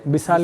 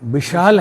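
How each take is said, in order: First: The second syllable starts with an s sound. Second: The second syllable starts with an sh sound. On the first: "तो विशाल बोल देंगे" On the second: "विशाल है"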